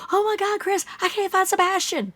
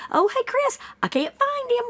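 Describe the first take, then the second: First: High distressed parent voice; mock frantic plea. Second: High, light, unbothered; mock breezy tone. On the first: A parent telling a friend the boy vanished, frantic. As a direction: plead as if your child is gone. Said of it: "I'd be like". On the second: Mocking the father's calm report to a friend, breezy. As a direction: say it like small talk. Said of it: "You would not say it like that".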